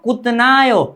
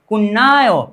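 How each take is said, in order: First: A t sound is said before 'nayo'. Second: A doubled n sound is said before 'ayo'. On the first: The speaker calls it wrong. "No कुतनायो" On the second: The speaker calls it right. "तो यहां पर हम बोलते हैं कुन्नायो"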